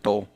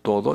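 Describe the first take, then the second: First: The word is cut to one syllable. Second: The word is said in full, two syllables. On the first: "dicen to" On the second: "En lugar de decir todo"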